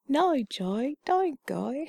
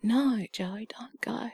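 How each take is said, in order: First: Hammed-up, higher Australian "No, Joe, don't go" with broad O; exaggerated Australian O. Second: Australian accent, broad O in "No, Joe, don't go"; Australian O sound. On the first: Repeating the O demo for laughs in "No, Joe, don't go", exaggerated Australian accent. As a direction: overdo the Aussie O in "No, Joe, don't go". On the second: Showing how Australians say O in "No, Joe, don't go", Australian accent. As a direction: stretch the vowels in "No, Joe, don't go" the Aussie way. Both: Shown as a demonstration. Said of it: "this kind of O sound".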